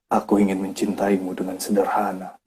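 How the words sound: It is read calmly with deep feeling. The speaker calls it right. "dibawain dengan dalam"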